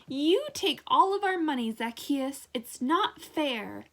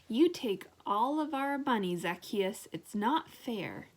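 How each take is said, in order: First: The line is said loudly with strong excitement. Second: The line is said in a soft, quiet voice. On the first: The speaker calls it right. "exclaimed Dave" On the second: The speaker calls it wrong. "quoted Dave in a soft voice"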